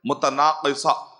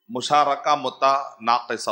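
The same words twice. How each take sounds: First: متناقصہ said slowly as mu-ta-naa-qi-sa, with a clear q; correct pronunciation. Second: مشارکہ متناقصہ read out slowly, syllable by syllable; slow careful reading. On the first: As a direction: model متناقصہ slowly, stressing the qaaf. (متناقصہ کا صحیح تلفظ، آہستہ اور واضح) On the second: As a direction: spell the term out slowly for students. (آہستہ آہستہ، ہر حرف واضح) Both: Shown as a demonstration. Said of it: "اس کا صحیح پروننسیشن ہے".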